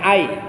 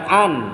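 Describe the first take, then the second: First: The n merges into a y sound. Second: The word ends with a clear n sound. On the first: The speaker calls it right. "bacanya ay" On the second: The speaker calls it wrong. "jangan an"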